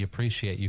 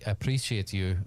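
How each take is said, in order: First: It is said in the speaker's ordinary accent. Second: It is said in a put-on foreign accent. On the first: The speaker calls it wrong. "I should be speaking a different accent" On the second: The speaker calls it right. "It's not Russian"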